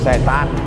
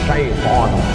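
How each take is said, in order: First: It is pronounced in the local setan form. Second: It is pronounced with the original Arabic-like syaiton sound. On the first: The speaker calls it wrong. "Cuman orang kita payah bilang syaiton" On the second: The speaker calls it right. "Yang betul ni mana Pak Ustaz?"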